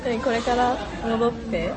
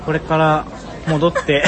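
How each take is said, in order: First: Slow, carefully spaced mock of Siri dictation; slow mock robotic syllables; imitating dictation voice. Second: Stiff robotic syllables; loud, carefully separated words; Siri dictation voice. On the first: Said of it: "正しく読み取らせる時の喋り方みたいな". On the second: Real, not acted. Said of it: "Siriにさ、音声をさ、正しく読み取らせる時の喋り方".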